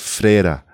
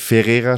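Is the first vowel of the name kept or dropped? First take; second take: dropped; kept. First: The first vowel after F is dropped. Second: The first vowel after F is fully pronounced. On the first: "aber man sagt Freira" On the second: "schreibt man es"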